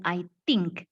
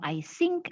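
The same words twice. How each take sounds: First: "think" pronounced "tink" after "I". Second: "think" pronounced "sink" after "I". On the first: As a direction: show the wrong t in place of th in "think". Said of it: "ada yang bilang". ("think" dengan bunyi t, jadi "tink") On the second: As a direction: show the wrong s in place of th in "think". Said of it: "Ada yang bilang". ("think" dengan bunyi s, jadi "sink") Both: Shown as a demonstration.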